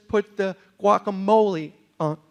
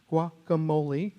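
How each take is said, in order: First: Said in the usual way. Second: Guacamole said slowly, wah-kuh-MOH-lee, rising at the end; guacamole repeated. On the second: Shown as a demonstration. Waitress teaching the word guacamole. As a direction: spell out guacamole by sound, unhurried. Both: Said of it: "and then she says".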